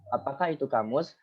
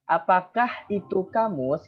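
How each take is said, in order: First: Said in the usual way. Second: Slow, careful reading-out of the sentence; slow reading aloud. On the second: Shown as a demonstration. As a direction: read it slowly, the way you would to the class. (membaca pelan untuk kelas)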